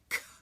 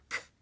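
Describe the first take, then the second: Both takes have the same delivery.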